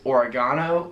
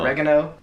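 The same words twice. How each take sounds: First: It is said with an Australian pronunciation. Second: It is said with an American pronunciation. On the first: "they pronounce them so differently here" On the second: "or as we say in the U S"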